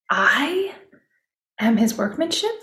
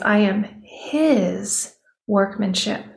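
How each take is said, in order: First: The stress is on the word I. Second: The stress is on the word his.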